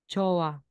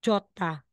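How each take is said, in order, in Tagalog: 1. Walang katinig na naririnig sa pagitan ng mga patinig. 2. Naririnig ang tunog na t sa pagitan ng mga patinig. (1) "Magiging jowa" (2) "hindi natin bibigkasin na ganyan"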